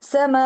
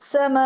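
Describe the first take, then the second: No difference in how they are said.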